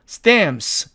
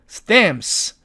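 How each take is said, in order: No difference in how they are said.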